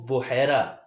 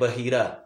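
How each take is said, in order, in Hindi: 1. यह 'bu' से शुरू होता है और इसमें 'ai' की आवाज़ है। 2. यह 'ba' से शुरू होता है और इसमें लंबी 'ee' है। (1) "वो बहीरा नहीं होता, वो बुहैरा" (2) "अक्सर लोग इसमें गलती भी करते हैं"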